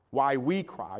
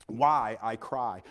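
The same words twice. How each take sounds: First: WE picked out as the contrasting word; stress on WE. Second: Slow, lower, with weight on I; stress on I. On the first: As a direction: lean on the word we. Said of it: "I didn't put why we cry". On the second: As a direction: lean slowly on the word I. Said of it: "You notice that I didn't put why we cry". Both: Shown as a demonstration.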